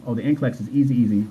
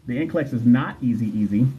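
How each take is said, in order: First: Said in the usual way. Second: "not" stressed as a correction, the rest even. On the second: Real, not acted. Host correcting a viewer's claim, stress on "not". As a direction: lean on "not" to contradict. Firm rebuttal of viewer's comment.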